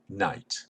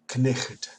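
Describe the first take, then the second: First: The initial k is silent before the n. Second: The initial k is sounded before the n. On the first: This is the modern form of the word. "now becomes knight" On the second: This is the older form of the word. "still retained the pronunciation, as knicht"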